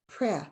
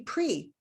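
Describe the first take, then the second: First: The vowel is short, as in 'prep'. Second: The vowel is long, as in 'pretest'. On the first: "here we're practicing the short vowel sound" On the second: "What about a pretest? So then it would be pre"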